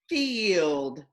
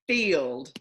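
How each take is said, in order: First: Each sound is drawn out slowly and separately. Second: The word is said at ordinary speaking speed.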